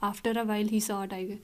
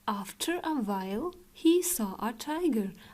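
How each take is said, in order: First: It runs on with no pause after 'while'. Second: There is a short pause after 'while'. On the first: The speaker calls it wrong. "अब ऐसे नहीं पढ़ना" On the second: The speaker calls it right. "हल्का सा रुकना है"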